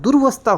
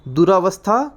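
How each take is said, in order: First: No vowel follows 'dur' before 'vastha'. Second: An 'aa' vowel follows 'dur' in the word. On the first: The speaker calls it right. "दुर्वस्था होता है" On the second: The speaker calls it wrong. "दुरावस्था कुछ नहीं होता है"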